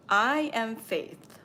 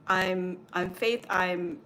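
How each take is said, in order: First: Slow, louder, every word "I am Faith" landed deliberately; claiming her name at last; firm declaration. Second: Halting, flustered stammer; retold stammer when the voice asks again; stuttering. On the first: Retold or imitated. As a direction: plant "I am Faith" slowly and firmly. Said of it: "as I was saying those words". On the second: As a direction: trip over your own name. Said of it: "and I stuttered".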